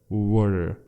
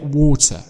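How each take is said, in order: First: The t is a soft d-like flap. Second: The t is clearly pronounced. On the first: "It's rather pronounced in the American accent" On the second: "but we do pronounce it water"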